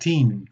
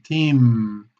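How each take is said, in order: First: The word ends with an N sound instead. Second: The word ends with lips closed on M. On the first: The speaker calls it wrong. "hay una tendencia a decir team con N" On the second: The speaker calls it right. "practicando la M con ambio- ambos labios"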